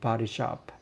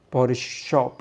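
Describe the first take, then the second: First: The vowel in body has an American open sound. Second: The vowel in body has a British rounded sound. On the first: The speaker calls it right. "American accent" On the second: The speaker calls it wrong. "မဟုတ်ဘူး"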